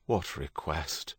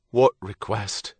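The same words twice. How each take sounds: First: Soft, slow, wary question. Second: Said in the usual way. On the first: A narrator's reading. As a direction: ask it low-key and drawn out, on guard. Stephen senses a sudden chill.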